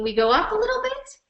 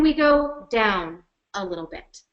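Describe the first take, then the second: First: Pitch going up. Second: Pitch going down. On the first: Presenter demonstrating pitch for listeners, going up. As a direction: voice climbing through the phrase. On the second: Presenter demonstrating pitch for listeners, going down. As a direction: voice stepping downward through the phrase. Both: Shown as a demonstration.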